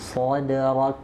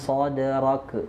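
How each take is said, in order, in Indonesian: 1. Bunyi k terakhir dilepas dengan hembusan udara. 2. Bunyi k terakhir dilepas dengan suara. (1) "Ini yang keluar udara, bukan suara"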